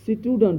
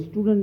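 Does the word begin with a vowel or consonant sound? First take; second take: consonant; vowel. First: The word begins with a consonant sound. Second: The word begins with a vowel sound. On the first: The speaker calls it right. "ये स्टूडेंट होता है" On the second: The speaker calls it wrong. "स्टूडेंट नहीं होता"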